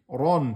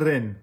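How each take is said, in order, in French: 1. La syllabe est lourde, avec une voyelle sombre. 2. La syllabe est légère, avec une voyelle fine. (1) "c'est un temps, mais en fatigue" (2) "c'est pas ren"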